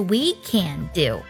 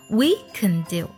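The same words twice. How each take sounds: First: The word can is strong and full. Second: The word can is weak and reduced. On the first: The speaker calls it wrong. "而不是" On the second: The speaker calls it right. "我们通常呢将can 弱读成can 的音"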